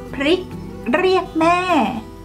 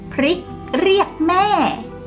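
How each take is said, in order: Both takes have the same delivery.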